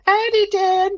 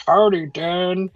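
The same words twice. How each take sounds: First: Howdy squeaked far higher, cartoonish; mock it in a silly high voice; mock squeaky howdy. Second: Said in the usual way. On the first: Shown as a demonstration. Showing how Roger did not say it, mock squeak. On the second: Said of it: "He probably said".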